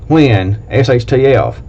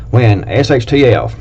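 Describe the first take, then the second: No difference in how they are said.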